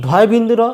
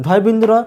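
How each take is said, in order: Both takes have the same delivery.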